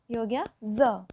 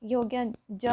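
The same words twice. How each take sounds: First: ज said as z, a buzzing zə; ज as a voiced z sound; with nukta. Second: ज said as a hard j as in jay; ज with a clear j; without nukta. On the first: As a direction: turn ज into z for the nukta. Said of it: "इस तरह बोलने में फ़र्क आ जाता है". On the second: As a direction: give ज its plain j sound, no buzz. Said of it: "अगर हमें इसके नीचे नुक्ता लगा दें". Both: Shown as a demonstration.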